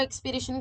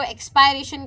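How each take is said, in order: First: एक्सपीरेशन said ex-pee-RAY-shun; second option, softer, एक्सपीरेशन with "pee" in the middle; either-way pronunciation. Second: एक्सपायरेशन said ex-pie-RAY-shun; first option, एक्सपायरेशन with "pie" in the middle; either-way pronunciation. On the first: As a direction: give एक्सपीरेशन an "ee" vowel after the p. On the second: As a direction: give एक्सपायरेशन an "eye" vowel, as in expire. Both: Shown as a demonstration. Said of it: "it's up to you".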